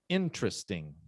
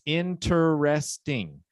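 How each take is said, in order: First: The second syllable is dropped, leaving three. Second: All four syllables are pronounced fully. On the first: "but we actually pronounce it interesting" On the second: "it's written as though it's interesting"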